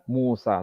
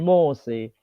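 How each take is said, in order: First: The name ends with an open a vowel. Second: The name ends with an e vowel. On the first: This is the usual reading. "Kalau biasa kita baca Musa" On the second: This is the reading of another transmission. "Bukan Musa, tapi Mose"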